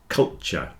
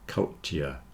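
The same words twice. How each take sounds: First: It is quick, with t and y joined into ch. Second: It is slow, with separate t and y sounds. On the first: "if you're speaking quickly, the t, y joins together into a ch" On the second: "If you say it slowly, you'll separate the t and the y"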